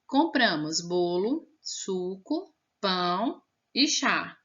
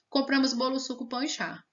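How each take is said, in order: First: Short pauses separate the listed items. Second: The items run together with no pauses. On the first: The speaker calls it right. "depois da palavrinha bolo você tinha que dar uma pausa" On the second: The speaker calls it wrong. "Vamos tirar a vírgula. ... Como se fosse tudo uma palavrinha só"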